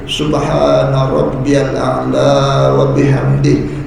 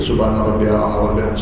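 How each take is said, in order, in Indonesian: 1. Dibaca pelan dengan vokal panjang yang dipanjangkan. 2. Dibaca cepat dengan vokal panjang yang dipendekkan. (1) "Kalau baca dengan tertil macam itu" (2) "Tiga kali baca tu senampas je"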